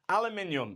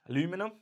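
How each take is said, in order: First: It is said the British way, five syllables. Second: It is said the American way, four syllables.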